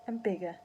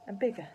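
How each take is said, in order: Both takes have the same delivery.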